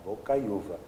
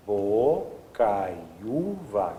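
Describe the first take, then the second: First: Said in the usual way. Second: "bocaiúva" very slow, every syllable drawn out. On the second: Shown as a demonstration. Teacher pointing out the U, syllable by syllable. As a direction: stretch "bocaiúva" so the separate U stands out. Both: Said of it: "Isso aqui é um U".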